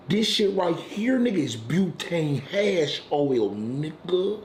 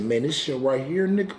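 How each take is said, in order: First: Slow, drawn-out reveal. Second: Said in the usual way. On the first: Retold or imitated. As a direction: lay it out slow and proud like a dealer showing off. Friend slowly presenting the drug.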